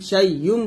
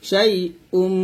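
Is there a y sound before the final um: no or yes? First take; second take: yes; no. First: A y sound comes before the final um. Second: No y sound comes before the final um. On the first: The speaker calls it wrong. "শাই ইউম বলবেন না" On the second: The speaker calls it right. "শাই উম বলবেন"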